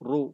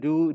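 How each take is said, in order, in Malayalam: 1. r ശബ്ദം കനത്തതും നിറഞ്ഞതുമാണ്. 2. r ശബ്ദം നേരിയതും മെലിഞ്ഞതുമാണ്. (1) "തഫ്ഖീമ" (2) "രുജൂമൻ എന്നല്ല"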